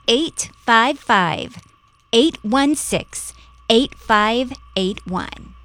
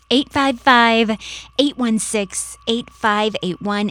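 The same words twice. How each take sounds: First: The number is read slowly. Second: The number is read quickly.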